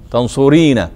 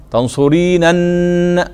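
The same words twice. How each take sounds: First: Said in the usual way. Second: تنصرينن very slowly, "tanṣuriinannn"; drawn-out original form. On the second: Shown as a demonstration. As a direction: sound out تنصرينن, holding the long "ii" and final nuns. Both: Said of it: "بعدين أصلها".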